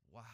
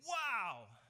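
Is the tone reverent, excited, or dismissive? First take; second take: reverent; excited. First: It is said with quiet awe. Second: It is said with loud excitement.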